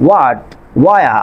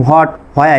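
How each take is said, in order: First: "হোয়াট, ওয়া" begun with a plain w, no h; silent H. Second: "হোয়াট, হোয়া" begun with an audible h; H wrongly sounded. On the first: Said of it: "আমি কিন্তু হোয়াট, হোয়া এভাবে বলছি না". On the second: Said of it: "এভাবে বলছি না". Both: Shown as a demonstration.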